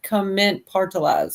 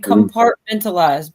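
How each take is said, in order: First: The syllables come in a swapped order. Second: The syllables come in their usual order. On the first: The speaker calls it wrong. "you pronounced it, but in opposite order" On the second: The speaker calls it right. "I knew exactly what you're saying"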